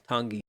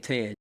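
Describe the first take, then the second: First: The word is said as two syllables ending 'ee'. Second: The word is said as one short syllable. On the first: "I think it's actually pronounced Tangi" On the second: "I say Tan"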